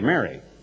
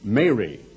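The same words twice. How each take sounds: First: The first vowel sounds like a short E. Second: The first vowel is a long A. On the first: The speaker calls it wrong. "People all pronounce it the same way" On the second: The speaker calls it right. "this is more of a long A and should be more like Mary"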